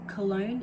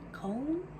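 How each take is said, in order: First: The city name is pronounced the English way. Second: The city name is pronounced the German way. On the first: "in English" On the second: "in German"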